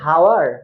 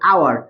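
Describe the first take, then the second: First: The word starts with a clear h sound. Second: The word starts with a vowel, no h sound. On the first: The speaker calls it wrong. "হাওয়ার কি হবে? হবে না" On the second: The speaker calls it right. "আমি এখানে কি বলবো? আওয়ার।"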